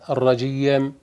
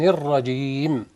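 First: An extra y sound comes before the m. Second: The ending is plain, with no added sounds. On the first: The speaker calls it wrong. "يجيب ياء قبل الميم الرجيم" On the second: The speaker calls it right. "إنما النطق الصحيح"

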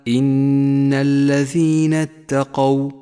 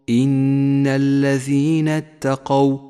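The two takes are said the same way.

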